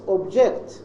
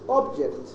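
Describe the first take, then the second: First: The stress is on the second syllable. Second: The stress is on the first syllable. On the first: It is used as a verb. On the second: It is used as a noun. "this is the noun"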